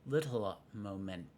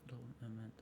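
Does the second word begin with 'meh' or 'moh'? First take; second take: moh; meh. First: The second word begins with a 'moh' sound. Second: The second word begins with a 'meh' sound. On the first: The speaker calls it wrong. "not momento" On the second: The speaker calls it right.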